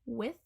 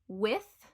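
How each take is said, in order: First: "with" ending in a V, "wiv"; Cockney th-fronting. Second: Said in the usual way. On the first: Shown as a demonstration. Teacher showing viewers Cockney "with" as "wiv". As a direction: close "with" on a buzzing V. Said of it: "with a V". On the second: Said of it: "will become with".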